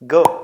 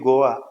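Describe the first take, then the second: First: The word ends clipped with no extra vowel. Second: The word ends with a dragged extra vowel. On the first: The speaker calls it right. "అది cut చేయాలి" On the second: The speaker calls it wrong. "Indian English"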